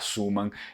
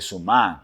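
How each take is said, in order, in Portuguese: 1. A tônica está na primeira sílaba. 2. A tônica está na segunda sílaba. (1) "de colocar a sílaba tônica na primeira" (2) "em vêneto provavelmente a pronúncia vai ser Suman"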